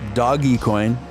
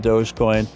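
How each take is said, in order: First: The first part sounds like 'doggy'. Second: The first part sounds like 'dohj'. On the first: A less common way some people say it. "I have heard some people pronounce it uh" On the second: The way most people say it. "most people pronounce it uh"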